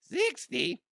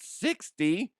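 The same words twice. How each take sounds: First: Squeaky, very high mock "sixty"; exaggerated voice crack. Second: High, cracking "sixty". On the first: Shown as a demonstration. Podcaster mocking his own cracked voice, squeaked "sixty". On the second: Real, not acted. Dad ranting at son with a sore throat, voice cracking on "sixty". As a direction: let "sixty" break upward in indignation. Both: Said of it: "My voice cracked".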